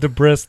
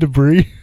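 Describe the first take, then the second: First: The word is said the way it is spelled. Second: The word is said with its usual pronunciation. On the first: The speaker learned the word only from reading it. The speaker calls it wrong. "She said debris" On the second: The speaker has heard the word said aloud. The speaker calls it right. "you mean debris?"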